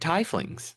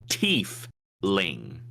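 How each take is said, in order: First: The first syllable is not pronounced 'teef'. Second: The first syllable is pronounced 'teef'. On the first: Some people used this pronunciation. The speaker calls it wrong. "Some people called them Tieflings" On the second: This is the official pronunciation. The speaker calls it right. "It is officially Tiefling"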